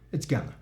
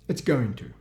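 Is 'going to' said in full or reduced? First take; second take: reduced; full. First: Going to is reduced to one word, gonna. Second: Going to is said fully as two words.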